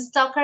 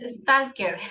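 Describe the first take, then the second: First: It is said with an English pronunciation. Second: It is said with a Spanish pronunciation. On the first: "It's a stalker in English, the pronunciation" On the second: "In Spanish, sometimes stalker"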